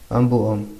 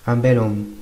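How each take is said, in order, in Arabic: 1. يلتقي حرفان متحركان مع فاصل بين الكلمتين. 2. صوت اللام يربط الكلمتين بسلاسة. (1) "شوفوا مثلا قولوا ان بو ام" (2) "الكلمة الصحيحة هي لازم تكون ان بيلوم"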